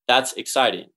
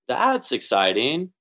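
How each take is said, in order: First: It is said in a playful, sarcastic tone. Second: It is said in a plain, sincere tone.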